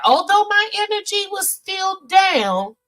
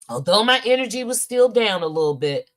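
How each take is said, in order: First: Raised, emphatic high voice; high, strained-up delivery; high-pitched exclamation. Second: Said in the usual way. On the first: Real, not acted. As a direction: push it way up high. Repeats line high, then in usual voice.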